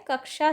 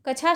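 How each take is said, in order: First: कक्षा with a k-sh cluster, "kaksha"; correct pronunciation. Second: कछा said with chh, as "kachha"; wrong pronunciation. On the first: Teacher giving students the right form, कक्षा as "kaksha". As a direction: sound both k and sh in कक्षा. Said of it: "शब्द सही है". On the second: Teacher showing students the error, कछा as "kachha". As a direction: use an aspirated ch in कछा. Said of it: "शब्द गलत है". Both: Shown as a demonstration.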